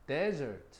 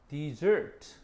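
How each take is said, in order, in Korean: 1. 강세는 첫 번째 음절에 있어요. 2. 강세는 두 번째 음절에 있어요. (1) "강세가 앞에가 있지?" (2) "요건 뒤에가 있지?"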